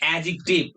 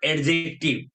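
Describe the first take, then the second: First: The d merges into one j sound. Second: A separate d sound comes before j. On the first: The speaker calls it right. "You will say adjective" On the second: The speaker calls it wrong. "not adjective"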